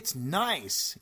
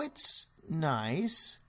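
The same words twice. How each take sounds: First: It is said with enthusiastic exclamation. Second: It trails off hesitantly at the end. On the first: The words match the real feeling. The speaker calls it right. "with an interrobang, which of course is an exclamation mark" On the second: The words do not match the real feeling. The speaker calls it wrong. "there's an ellipsis, a dot, dot, dot at the end of the sentence"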